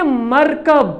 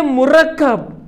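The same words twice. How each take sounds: First: मरकब as MAR-kab, single k; pronounced markab. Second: मुरक्कब as mu-RAK-kab, doubled k; pronounced murakkab. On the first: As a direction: say मरकब in two slow syllables, mar-kab. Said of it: "pronunciation अलग-अलग है". (मरकब को "मर-कब" पढ़ें) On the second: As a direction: say मुरक्कब slowly with u first and a held kk. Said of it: "तलफ़ुज़ अलग-अलग है". (मुरक्कब को "मु-रक्-कब" पढ़ें) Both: Shown as a demonstration.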